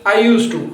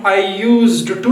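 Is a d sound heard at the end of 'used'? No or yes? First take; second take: no; yes. First: No d sound is heard after 'used'. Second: A d sound is heard after 'used'. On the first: The speaker calls it right. "डी को हम silent करते हैं" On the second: The speaker calls it wrong. "हम I यूज्ड to नहीं बोलते हैं"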